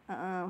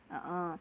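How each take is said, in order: Both takes have the same delivery.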